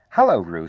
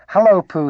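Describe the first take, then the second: First: Said in the usual way. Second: Very high, loud little greeting; excited squeak. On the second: A narrator's reading. Excited youngster greets bear at his first party, squeaking. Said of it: "he squeaked".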